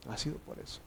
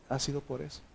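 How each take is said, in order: First: Whispered, much softer repeat. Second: Said in the usual way. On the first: Real, not acted. Pastor whispers the point again to his congregation, hushed. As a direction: let it sink in with a whisper.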